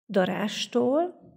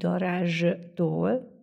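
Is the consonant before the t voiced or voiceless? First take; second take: voiceless; voiced. First: The consonant before the t is a voiceless s. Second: The consonant before the t is a voiced z. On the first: The speaker calls it right. "kiejtve viszont azt halljuk, hogy darástól" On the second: The speaker calls it wrong. "nem fogom erőltetni"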